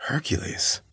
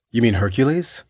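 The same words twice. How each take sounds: First: "Hercules" whispered, high and puzzled; confused whisper. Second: Said in the usual way. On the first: A narrator's reading. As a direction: breathe "Hercules" like a dazed echo. Dazed man echoes the name.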